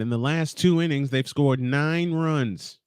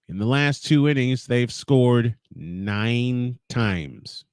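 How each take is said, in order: First: It is said in the announcer's normal voice. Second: It is said in a Ferris Bueller-style put-on voice.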